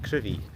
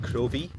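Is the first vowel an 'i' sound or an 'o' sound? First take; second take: i sound; o sound. First: The first vowel is an 'i' sound. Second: The first vowel is an 'o' sound. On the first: The speaker calls it right. "it's pronounced Crivey, C R I V I E" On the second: The speaker calls it wrong. "I always thought I've read on the map, map it was Crovie, C R O V I E"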